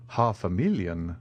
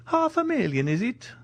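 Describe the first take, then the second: First: Said in the usual way. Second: Very high-pitched, amazed question; astonished. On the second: Acted. Major learns he has a fortune, astonished. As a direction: leap up high in disbelief.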